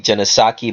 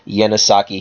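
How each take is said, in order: First: The name begins with a J sound. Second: The name begins with a Y sound. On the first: The speaker calls it wrong. "A lot of people will say Janasaki" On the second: The speaker calls it right. "the actual pronunciation may be pronounced like a Y"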